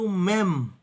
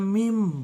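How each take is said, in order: First: The vowel sounds like 'eh'. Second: The vowel sounds like 'ee'. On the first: The speaker calls it right. "Yang ada itu mem" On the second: The speaker calls it wrong. "abjad Ibrani nggak ada mim"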